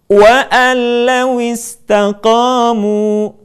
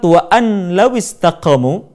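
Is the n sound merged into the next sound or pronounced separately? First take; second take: merged; separate. First: The n is merged into the following l. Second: The n is pronounced separately before the l.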